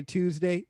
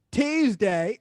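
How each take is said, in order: First: Said in the usual way. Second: "Tuesday" loud, high, with twisted Baltimore vowel; Baltimore accent. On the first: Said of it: "Oh, say Monday". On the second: Shown as a demonstration. Demonstrating how locals say "Tuesday", exaggerated Baltimore accent.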